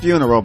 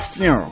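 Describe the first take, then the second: First: The word is pronounced in full, standard form. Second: The word is clipped, with sounds cut off. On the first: "Not funeral" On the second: "but funeral. ... Everything's like cut off"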